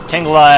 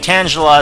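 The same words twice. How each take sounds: First: The first part sounds like the word 'tangle'. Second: The first part does not sound like 'tangle'. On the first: "as in Tangle" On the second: "is a lot better pronunciation"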